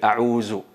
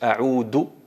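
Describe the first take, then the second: First: The middle consonant is a z sound. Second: The middle consonant is a plain d sound. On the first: "cambian el dal con el zay ... totalmente incorrecto" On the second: "pronuncian del ... ahí alteras totalmente el significado"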